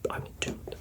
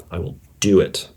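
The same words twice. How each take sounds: First: Breathy whisper of the promise. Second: Said in the usual way. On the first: Shown as a demonstration. Host quietly promising listeners the episode, whispered. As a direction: whisper it like a secret vow.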